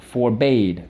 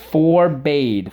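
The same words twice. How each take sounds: First: Said in the usual way. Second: "Forbade" drawn out as FOR, BADE, pitched up; slow, separated halves of "Forbade"; syllable by syllable. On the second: Shown as a demonstration. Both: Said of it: "So let's go".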